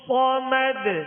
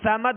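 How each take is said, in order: First: The first consonant is heavy and full. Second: The first consonant is thin and light. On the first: The speaker calls it right. "सख्ती से अदा करेंगे और पुर पढ़ेंगे" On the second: The speaker calls it wrong. "समद नहीं पढ़ेंगे, बारीक नहीं पढ़ेंगे"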